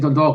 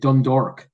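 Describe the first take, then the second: First: The second syllable is said as 'dalk'. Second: The second syllable is said as 'dork'. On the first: The speaker calls it right. "he can't say Dundalk" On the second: The speaker calls it wrong. "he has to say Dundork"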